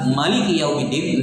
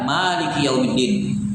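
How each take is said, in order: First: The vowel after the m is kept short. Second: The vowel after the m is drawn out long. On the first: The reading has one fewer letter in the count. "tidak di mad mimnya" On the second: The reading has one more letter in the count. "bi qiraati Malik bil alif"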